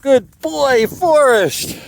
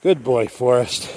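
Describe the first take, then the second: First: High praise. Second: Said in the usual way. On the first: Real, not acted. Owner praising Forrest for making it, high praising voice. Praising animal after the climb.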